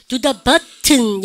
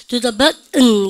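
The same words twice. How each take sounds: First: "button" as but-teun with a hard T, slowly; British T. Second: "button" as but-eun, loud and slow; American dropped T. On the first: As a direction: sound the T fully in "button". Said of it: "영국 애들". ("button"을 벗-튼, 느리게) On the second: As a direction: stop the breath before the "button" ending. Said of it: "미국식 합니다". ("button"을 벗-은, 힘주어) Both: Shown as a demonstration.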